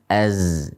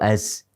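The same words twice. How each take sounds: First: The z is said with only buzzing vibration. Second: The z is said with a strong puff of breath. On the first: The speaker calls it right. "Yang benar adalah az. Dengan getaran saja" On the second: The speaker calls it wrong. "diucapkan dengan banyak menghentakkan nafas"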